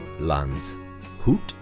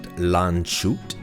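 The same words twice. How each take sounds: First: The s and h are split across syllables. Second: The middle letters merge into one sh sound. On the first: The speaker calls it right. "it's Landshut" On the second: The speaker calls it wrong. "it's not shoot, it's it's not Landshut"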